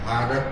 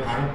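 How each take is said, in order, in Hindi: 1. शब्द एक छोटी स्वर ध्वनि पर खत्म होता है। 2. शब्द व्यंजन पर खत्म होता है, अंत में कोई स्वर नहीं। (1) "जबकि है राम भारत" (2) "भारत बोलते हैं"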